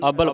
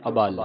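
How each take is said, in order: First: ਅਬਲ run together quickly with short vowels; quick ਅਬਲ, the first a not set apart; common misreading. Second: ਅਬਲ as a light a joined to a full bal; prefix rejoined. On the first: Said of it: "ਕਈ ਸੰਗਤਾਂ ਨੂੰ ਅਬਲ ਪੜ੍ਹ". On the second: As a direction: lower ਅਬਲ, short a then weight on bal. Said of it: "ਐੜਾ ਫਿਰ ਨਾਲ ਜੋੜ ਦਿਓ". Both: Shown as a demonstration.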